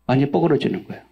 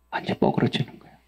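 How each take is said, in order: First: Said in the usual way. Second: Hushed whisper on 뻐그러지는, breath only; preacher drops to a whisper. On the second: Acted. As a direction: lean in and whisper 완전 뻐그러지는 거예요. Whispered then repeated aloud.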